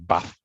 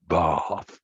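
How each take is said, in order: First: It has a vowel between northern and southern. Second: It has a long southern English vowel.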